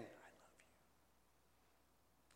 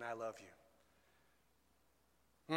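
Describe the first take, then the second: First: Barely audible, tender whisper. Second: Soft, low voice, lightly hushed. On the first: Preacher voicing God's message to the congregation, whispered. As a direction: whisper it very softly, almost no voice. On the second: Preacher repeating God's message to the congregation, softly voiced. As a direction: say it quietly, just above a whisper. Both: Acted. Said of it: "he's whispering to us".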